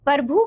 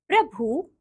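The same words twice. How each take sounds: First: "प्रभु" broken up as "par-bhu"; wrong pronunciation. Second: Said in the usual way. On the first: Shown as a demonstration. Teacher showing pupils the error, "प्रभु" mispronounced as "parbhu". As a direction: move the r of "प्रभु" after the vowel, "parbhu". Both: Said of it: "का".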